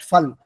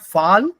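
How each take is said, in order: First: The vowel is short, as in German. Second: The vowel is long, as in English. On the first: The speaker calls it right. "double wall is short" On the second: The speaker calls it wrong. "Fall is English"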